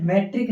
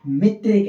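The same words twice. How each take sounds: First: मेट्रिक said with a short e, me-trik; the wrong way, मेट्रिक with short e; wrong pronunciation metrik. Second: मीट्रिक said with a long ee, mee-trik; the right way, मीट्रिक with long ee; correct pronunciation meetrik. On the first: Teacher showing students the wrong form, मेट्रिक with short e. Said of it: "इसको मेट्रिक नहीं बोलना है". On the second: Teacher correcting students' pronunciation, मीट्रिक with long ee. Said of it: "मेट्रिक नहीं बोलेंगे". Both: Shown as a demonstration.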